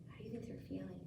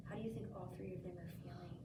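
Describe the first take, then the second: First: Hushed whispered question. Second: Said in the usual way. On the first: Real, not acted. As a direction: breathe the question softly. Teacher repeats question in whisper.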